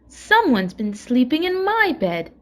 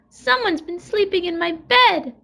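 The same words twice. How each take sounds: First: It is said with a middle-sized growl. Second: It is said with a wee little growl.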